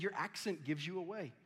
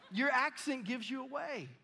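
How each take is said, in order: First: Said in the usual way. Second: Loud, high-pitched accusing quote; mock accusation. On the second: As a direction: throw it at him, pitched way up. Townsfolk's accusation acted out again.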